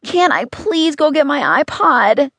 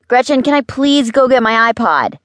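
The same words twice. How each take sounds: First: Put-on high, slow child's whine; drawn-out, high-pitched begging. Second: Put-on high, loud kid nagging; insistent high-pitched request; pestering plea. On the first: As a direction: drag out the plea in a high kid voice. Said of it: "Henry begged". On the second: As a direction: pester in a high child's voice, asking yet again. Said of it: "asked for the three millionth time". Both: A narrator's reading.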